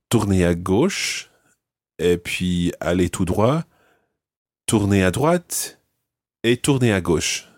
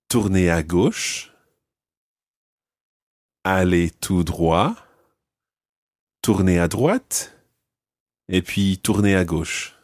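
First: The directions are said at a fast pace. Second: The directions are said at a slow pace.

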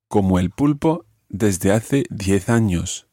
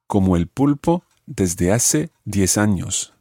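First: It is said with a Spain accent, with th sounds. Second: It is said with a Latin American accent, no th.

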